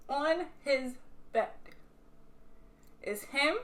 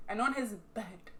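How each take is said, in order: First: Drawn-out "on his bed"; dramatic repeat. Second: Said in the usual way. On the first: Real, not acted. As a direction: stretch "on his bed" slowly for suspense.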